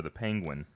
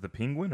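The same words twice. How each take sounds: First: "Penguin" with an open first vowel, PANG-gwin; pronunciation demo of Penguin. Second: "Penguin" with a short i, PIN-gwin; pronunciation demo of Penguin. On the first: Asking friend which way it is said, "Penguin" as PANG-gwin. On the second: Asking friend which way it is said, "Penguin" as PING-gwin. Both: Shown as a demonstration. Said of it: "Is it the Penguin or the Penguin?".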